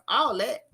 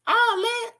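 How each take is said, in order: First: Said in the usual way. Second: "All that" jumped up high in a mock voice; "All that" said much higher, in a mock voice; high put-on voice. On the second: Shown as a demonstration. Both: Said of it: "repeated in contrasting voice".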